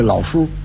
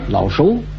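First: The second syllable has a high level tone. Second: The second syllable has a rising tone.

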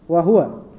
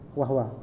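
First: The h is followed by a u vowel. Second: The h is followed directly by the w. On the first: "Kalimat wa huwa dibaca dengan dhammahnya huruf ha" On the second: "Tapi juga ada yang membaca sukun. Menjadi wahwa"

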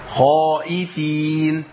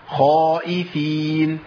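Both takes have the same delivery.

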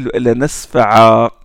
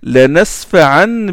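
First: The word ends with a long vowel. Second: The word ends with an n sound. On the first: The reader stops on this word. "Si on veut s'arrêter" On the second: The reading continues without stopping. "comme ça se prononce, c'est avec noun à la fin"

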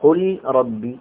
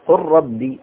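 First: The L is pronounced clearly before the R. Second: The L merges fully into the following R. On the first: The speaker calls it wrong. "ولا تقل قل ربي" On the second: The speaker calls it right. "فأدغمه في الثاني. فقل ربي"

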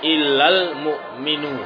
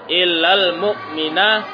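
First: The last word ends with a 'u' vowel. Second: The last word ends with an 'a' vowel. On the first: The noun is in the nominative case. "boleh di itba, rafa" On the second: The noun is in the accusative case. "Boleh dinasob"

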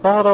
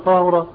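First: The first vowel is an open 'a'. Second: The first vowel is a rounded 'u'. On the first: "الفتحة" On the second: "الضم"

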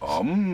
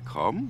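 First: The word starts without any k sound. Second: The word starts with a hard k sound. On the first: The speaker calls it right. "dieses harte K wegzulassen" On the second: The speaker calls it wrong. "dieses harte K"

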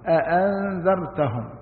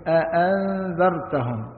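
Both takes have the same delivery.

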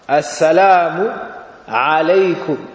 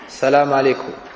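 First: The greeting begins with the article sound 'as'. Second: The greeting begins directly with 'sa', no article. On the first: The speaker calls it right. "tu dis Assalamu avec Alif Lam" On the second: The speaker calls it wrong. "Tu dis pas Salam alaykum, comme ça"

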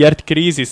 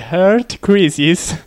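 First: The name is said with a Roman Italian pronunciation. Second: The name is said with an English-style pronunciation.

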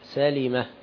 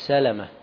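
First: The vowel after the L is 'i'. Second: The vowel after the L is 'a'. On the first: The speaker calls it right. "سالمة بكسر اللام" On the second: The speaker calls it wrong. "مش سالمة"

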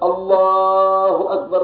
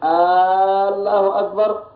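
First: The opening vowel is short. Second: The opening vowel is drawn out long. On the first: It is a plain statement that God is greatest. The speaker calls it right. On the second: It becomes a question whether God is greatest. The speaker calls it wrong.

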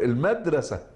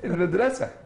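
First: The stress falls near the start of the word. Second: The stress falls near the end of the word. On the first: The speaker calls it wrong. "ففي لهجة الريف ستقول المدرسة" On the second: The speaker calls it right. "أنت عليك المدرسة"

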